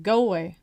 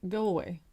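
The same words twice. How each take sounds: First: Louder, forceful retold brush-off; firmer dismissal. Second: Said in the usual way. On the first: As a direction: raise your voice to send him off. Repeats it as he keeps on.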